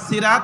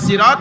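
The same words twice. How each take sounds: First: The first s is a light, plain sound. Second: The first s is a heavy, emphatic sound. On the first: The word means a wooden stick. The speaker calls it wrong. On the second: The word means a road or path. The speaker calls it right.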